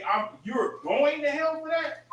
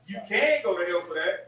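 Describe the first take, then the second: First: Higher, slow verdict leaning on GOING; stress on GOING. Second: CAN leaned on, at ordinary pitch; stress on CAN. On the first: Mimicking someone throwing people in hell, stress on GOING. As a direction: draw out GOING as a certainty. Acts out condemning someone outright. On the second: Warning someone what could happen, stress on CAN. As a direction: make CAN the key word, only a possibility. Contrasts allowed warning with condemning. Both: Acted.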